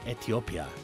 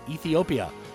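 First: It is pronounced the Korean way. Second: It is pronounced the usual English way.

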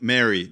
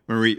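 First: The name is said like the name Mary. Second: The name is said like the name Marie. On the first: The speaker calls it wrong. "I automatically think Mary" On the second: The speaker calls it right. "Nope, it's not Mary, Marie"

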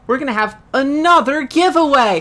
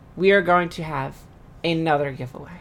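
First: It is said with lively excitement. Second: It is said flatly, without excitement.

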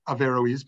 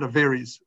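First: The name is said with the O sound pronounced. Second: The name is said quickly, the O sound dropped. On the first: "but they pronounce the O" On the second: "like if they're speaking fastly"

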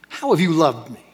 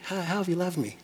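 First: It sounds angry and accusing, like a scorned spouse. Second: It sounds unsure and pleading, like an insecure question.

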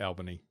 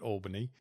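First: It is said the local Western Australian way. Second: It is said the way outsiders say it. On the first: The speaker is from Western Australia. The speaker calls it right. "because we call it Albany" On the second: The speaker is not from Western Australia. The speaker calls it wrong. "We always know when you're not from WA when you call it Albany"

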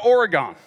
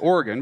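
First: Oregon is said in a Southern Tennessee way. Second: Oregon is said in the local Northwest way. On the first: The speaker calls it wrong. "they're from Tennessee and they don't say it right" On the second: The speaker calls it right. "he wouldn't say Oregon"

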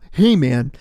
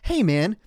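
First: It is said in a put-on radio voice. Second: It is said in a plain, ordinary voice.

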